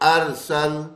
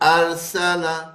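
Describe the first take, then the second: First: The word ends on the consonant l. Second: The word ends with a short a vowel. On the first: "बदल देंगे अरसल" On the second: "लाम पे जबर है"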